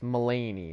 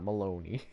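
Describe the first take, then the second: First: The name is said as Mulaney. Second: The name is said as Maloney. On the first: The speaker calls it right. "It's Mulaney" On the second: The speaker calls it wrong. "not Maloney"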